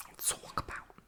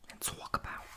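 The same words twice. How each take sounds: The two takes are said the same way.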